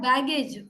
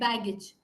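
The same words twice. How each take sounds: First: The ending is pronounced like the word age. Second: The ending is pronounced as a short ij. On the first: The speaker calls it wrong. "not baggage" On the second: The speaker calls it right. "age is usually pronounced ij"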